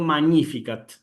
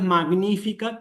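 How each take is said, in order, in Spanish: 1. La gn se dice como el sonido ny. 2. La gn se dice como una g dura más n. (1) "la G con la N se pronuncia como una ñ" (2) "no es Magnificat"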